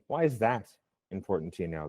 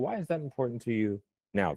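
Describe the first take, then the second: First: The word "that" carries the stress. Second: The word "now" carries the stress. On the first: The listener answers about the thing itself. "Second one, tangible. That" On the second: The listener answers in terms of time. "you will answer in terms of time frame"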